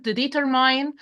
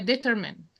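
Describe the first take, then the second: First: Determine ending like "mine"; mispronounced determine. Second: Determine with a short, unstressed "min" ending; correct determine. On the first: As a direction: say determine wrongly, rhyming the last syllable with "mine". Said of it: "I mispronounce the word determine". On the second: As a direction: end determine on "min", not "mine". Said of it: "the correct one". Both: Shown as a demonstration.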